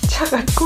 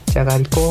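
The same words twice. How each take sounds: First: It is said in a heartbroken tone. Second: It is said in a lonely, forlorn tone. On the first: "失恋して" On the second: "寂しくて"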